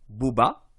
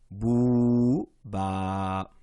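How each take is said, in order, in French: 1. Les voyelles sont prononcées courtes, pas prolongées. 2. Les voyelles sont prolongées et tenues longtemps. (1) "de ne pas dire" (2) "on fait attention de prolonger"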